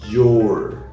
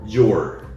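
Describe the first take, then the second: The two takes are said the same way.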